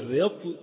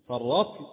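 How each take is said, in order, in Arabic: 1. الحرف الأول يتبعه صوت الكسرة. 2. الحرف الأول يتبعه صوت الفتحة. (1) "بكسر الراء" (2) "بفتح الراء"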